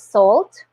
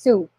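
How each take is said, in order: First: It is said like 'salt', with an L and T. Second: It is said like 'soo', with no L or T. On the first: The speaker calls it wrong. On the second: The speaker calls it right. "it's pronounced soup"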